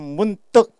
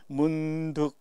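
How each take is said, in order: First: The second syllable starts with a tense consonant. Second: The second syllable starts with a plain consonant. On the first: The speaker calls it wrong. "한 두 사람 문떡 하고 얘기하는" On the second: The speaker calls it right. "나머지는 문득 이렇게 했는데"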